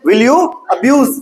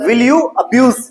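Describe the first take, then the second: First: Slow, each word set apart; patient slow drill; slow teacher repeat. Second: Said in the usual way. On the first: Shown as a demonstration. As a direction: repeat it slowly for a stuck pupil. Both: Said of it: "उसी बात पे अटकी खड़ी है".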